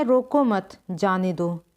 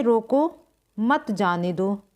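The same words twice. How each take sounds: First: "रोको मत" run together, then a break before "जाने दो"; pause after मत. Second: "रोको" on its own, then "मत जाने दो" together; pause after रोको. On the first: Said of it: "तो अलग-अलग अर्थ हो जाएंगे". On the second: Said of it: "दूसरे वाक्य में कहा गया है कि रोको". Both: Shown as a demonstration.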